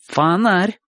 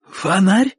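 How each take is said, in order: First: Higher, emphatic affirmation; confirming. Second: Higher, rising amazed query; sudden surprised question. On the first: Boy confirms the bump to Bocho, emphatically. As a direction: state it back as certain fact. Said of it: "подтверждает тот". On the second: Bocho feels his forehead, asks in surprise. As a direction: ask it with a lift of surprise. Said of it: "вдруг спрашивает он". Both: A narrator's reading.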